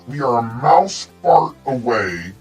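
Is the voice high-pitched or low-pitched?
low-pitched. It is said in a lower-pitched voice.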